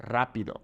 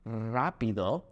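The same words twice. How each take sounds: First: Rápido with a trilled initial R; rolled R. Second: Rápido with the initial R not properly trilled; a mistaken R at the start of rápido; unrolled R. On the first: Teacher corrects to rápido with a rolled R. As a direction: roll the R that opens rápido. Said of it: "we have to roll our R's". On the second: Teacher shows how not to say rápido, R not fully rolled. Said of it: "it's not". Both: Shown as a demonstration.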